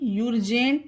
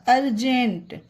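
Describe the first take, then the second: First: The word begins with a 'yoo' sound. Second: The word begins with a short 'uh' sound. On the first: The speaker calls it wrong. "इसे भी यूरजेंट नहीं पढ़ा जाएगा" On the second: The speaker calls it right.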